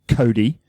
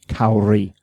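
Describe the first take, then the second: First: The middle consonant is a tapped sound like d. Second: The middle consonant is a clear English r. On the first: The speaker calls it wrong. "not a Cody" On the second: The speaker calls it right. "Kauri with a R"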